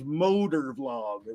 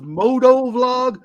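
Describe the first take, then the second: First: The first word is said as 'motor'. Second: The first word is said as 'moto'. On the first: The speaker calls it right. "the right way to say that is motor vlog" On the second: The speaker calls it wrong. "they do this moto vlog"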